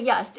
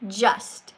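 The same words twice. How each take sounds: First: "just" mispronounced as "yust"; wrong just. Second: "just" with a firm j-sound at the start, rising at the end; correct just. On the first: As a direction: imitate the caller's "just" starting like "yust". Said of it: "It doesn't say just". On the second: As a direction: show the right "just" with a clear j. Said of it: "it says". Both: Shown as a demonstration.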